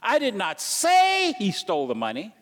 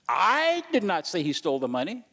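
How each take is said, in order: First: The stress falls on the word say. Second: The stress falls on the word I. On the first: It was implied rather than said outright. "you may not have said he stole the money, but you really, really implied that" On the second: Someone else said it. "I'm implying really that somebody probably said it, but I didn't"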